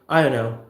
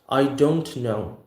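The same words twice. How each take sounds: First: The words are squashed into one blurred phrase. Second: Each word is pronounced clearly and separately. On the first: "extremely extreme colloquial reduction" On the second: "we're not gonna say like that in America"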